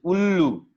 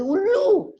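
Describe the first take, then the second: First: Said in the usual way. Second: "Ullu" shot up very high; startled cry. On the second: Acted. Monkey woken by the owl, crying "Ullu" in high alarm.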